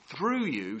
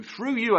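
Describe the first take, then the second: First: Said in the usual way. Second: Much higher and louder on through you; a booming divine promise; ringing proclamation. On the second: Acted. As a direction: proclaim it as God's voice to Abraham. God's promise repeated, built up.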